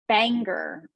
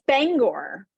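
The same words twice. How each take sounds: First: It is said the way outsiders say it. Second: It is said the way locals say it. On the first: The speaker is not from the area. The speaker calls it wrong. "People that say Bangor or something instead of" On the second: The speaker is from the area. The speaker calls it right. "It's Bangor"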